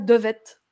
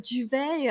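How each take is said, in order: First: The word ends with a pronounced t sound. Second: The word ends in a vowel, no t sound. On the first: The speaker calls it wrong. "moi, je croyais qu'on disait ça «devettes»" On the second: The speaker calls it right. "Non, tu veux dire, heu, duvet"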